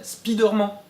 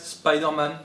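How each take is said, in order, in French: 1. Les deux mots se prononcent à la française. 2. Les deux mots se prononcent à l'anglaise. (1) "soit tout en français" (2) "soit on prononce les deux à l'anglaise"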